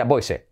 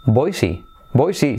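First: Put-on BOISE as "BOY-seh", final e like Spanish; Spanish spelling reading. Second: Put-on BOISE as "BOY-see"; correct English pronunciation. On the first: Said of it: "Cómo se pronuncia". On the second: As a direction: model BOISE with a clear "ee" ending. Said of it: "se pronuncia". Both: Shown as a demonstration.

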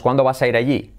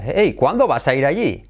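First: Said in the usual way. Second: "Hey, ¿cuándo vas a ir allí?" with swooping stresses; English intonation. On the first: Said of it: "En español decimos". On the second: Shown as a demonstration. Teacher puts English tune on Spanish, swooping. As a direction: swing the pitch on whole words after HEY. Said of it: "En inglés sería".

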